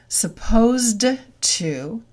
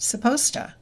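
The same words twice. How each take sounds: First: The d sound is kept. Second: The d sound is dropped.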